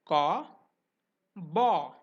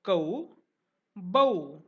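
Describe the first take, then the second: First: "ka", "ba" with one open aw vowel; Hindi-style "ka", "ba", rounded single vowel without glide; Hindi pronunciation. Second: "kau", "bau" gliding from uh to oo; Marathi-style "kau", "bau", drawn-out two-part vowel; Marathi pronunciation. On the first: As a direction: say "ka" as kaw and "ba" as baw. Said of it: "in Hindi, it will be, it will be pronounced as". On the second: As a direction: say "kau" as kuh-oo and "bau" as buh-oo. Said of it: "but in Marathi, it is pronounced as". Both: Shown as a demonstration.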